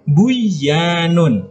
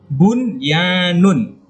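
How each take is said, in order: First: The n sound is merged into the y. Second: The n sound is clearly pronounced before y. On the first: The speaker calls it wrong. "Tidak boleh buyanun" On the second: The speaker calls it right. "Tapi jelas"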